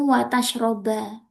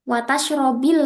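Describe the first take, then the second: First: The verb ends with an a vowel. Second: The verb ends with an i vowel. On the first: Only doing both together is forbidden. "wawu ma'iyah itu membuat fiil setelahnya dibaca eh, nasab" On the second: Doing it is forbidden because it is dangerous. "pasti dibaca la takulis samaka watashrobil labana"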